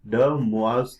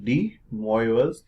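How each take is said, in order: First: The name is said in its original pronunciation. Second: The name is said in the common Indian pronunciation. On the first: "rightly pronounced as" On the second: "what most Indians say"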